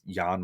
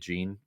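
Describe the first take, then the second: First: The name is pronounced unlike 'Gene'. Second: The name is pronounced like 'Gene'. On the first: The speaker calls it right. "It's it's Jan Montero" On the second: The speaker calls it wrong. "I think I was pronouncing it Gene"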